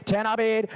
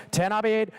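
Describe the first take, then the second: No difference in how they are said.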